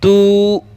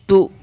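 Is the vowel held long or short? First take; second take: long; short. First: The vowel is drawn out long. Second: The vowel is short and not drawn out. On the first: The speaker calls it wrong. "तू इस तरह से नहीं करेंगे" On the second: The speaker calls it right. "खींचेंगे नहीं"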